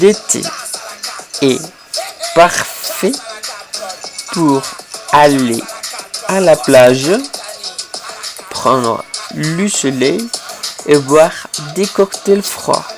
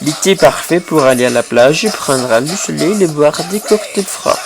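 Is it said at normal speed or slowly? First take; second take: slowly; normal speed. First: It is said slowly. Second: It is said at normal speed.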